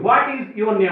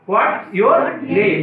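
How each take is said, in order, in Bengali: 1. 'is' শব্দটি পুরোপুরি বলা হয়। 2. 'is' শব্দটি সংক্ষিপ্ত হয়ে 'what's' হয়। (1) "এই দেখো আমরা এখানে ভুল করি" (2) "এটাকে সংক্ষিপ্ত শুদ্ধ রূপে বলতে হয়"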